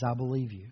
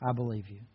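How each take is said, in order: First: Soft, fond reassurance to a son; a father's tender promise. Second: Quieter, lower, after a long pause; a hushed repeat for his son; softer tender echo. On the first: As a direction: say it gently to the child. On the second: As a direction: let it fall away, almost to yourself. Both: Retold or imitated. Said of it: "And he smiles".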